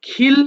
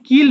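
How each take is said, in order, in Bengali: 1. "k" ধ্বনিটি বাতাসের ফুঁ দিয়ে বলা হয়। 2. "k" ধ্বনিটি বাতাসের ফুঁ ছাড়া বলা হয়। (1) "উচ্চারণটা আসলে খিল হবে" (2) "আমি কিন্তু কিল বলিনি"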